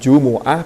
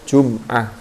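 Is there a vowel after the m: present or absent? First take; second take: present; absent. First: The m is followed by a u vowel. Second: The m is followed by no vowel.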